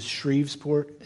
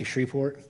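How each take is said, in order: First: "Shreveport" said as "Shreves-port"; quiet "Shreveport", pronounced "Shreves-port"; newcomer's pronunciation. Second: "Shreveport" said as "Shree-port"; quiet "Shreveport", pronounced "Shree-port"; local pronunciation. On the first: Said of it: "is how I pronounced it". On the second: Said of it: "You don't say that, you say". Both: Shown as a demonstration.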